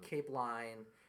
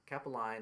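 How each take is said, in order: First: It is said as two syllables, cape-line. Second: It is said as three syllables, ca-pel-line. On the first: This is the common way people say it. The speaker calls it wrong. "most most people they'll say" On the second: This is the proper way to say it. The speaker calls it right. "capelline is how you pronounce it"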